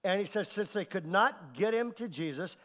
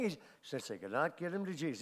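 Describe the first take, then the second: First: Said in the usual way. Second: Low, soft, lifeless drone; boring monotone. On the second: Shown as a demonstration. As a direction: read it like you couldn't care less. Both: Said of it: "and these guys is boring".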